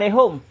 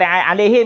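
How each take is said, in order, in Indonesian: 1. Suku kata terakhir punya vokal 'u'. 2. Suku kata terakhir punya vokal 'i'. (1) "Dia pakai alaihum" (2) "Kita kata alaihim kan?"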